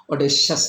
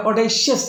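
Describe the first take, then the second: First: Audacious with a clean sha sound in the middle; audacious said the right way with sha; correct pronunciation. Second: Audacious said with an ishya sound in the middle; audacious mispronounced with ishya; wrong pronunciation. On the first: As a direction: say audacious with sha, not ishya. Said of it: "audacious എന്ന് pronounce ചെയ്യുക". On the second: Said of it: "audacious എന്ന് pronounce ചെയ്യാതിരിക്കുക". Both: Shown as a demonstration.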